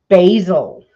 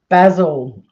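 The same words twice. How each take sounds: First: Basil is said with an American pronunciation. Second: Basil is said with a non-American pronunciation. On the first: The speaker calls it wrong. "or as you wacky Americans say" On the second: The speaker calls it right. "for those of you who want the official name"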